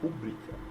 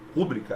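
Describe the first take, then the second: First: The stress is on a later syllable. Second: The stress is on the first syllable. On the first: The speaker calls it right. "é rubrica" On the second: The speaker calls it wrong. "não é ru"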